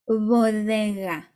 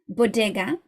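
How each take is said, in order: First: It is said Spanish-style with very soft consonants. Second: It is said English-style with hard consonants. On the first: The speaker calls it right. "in Spanish you would say bodega, bodega, really, really soft" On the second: The speaker calls it wrong. "in English you would pronounce it like this"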